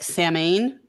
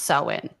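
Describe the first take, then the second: First: The word is pronounced the way it is spelled. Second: The word is pronounced differently from its spelling. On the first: This is the common popular pronunciation. The speaker calls it wrong. "people will pronounce it like Samhain" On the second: This is the traditional pronunciation. The speaker calls it right. "but it's actually pronounced Samhain"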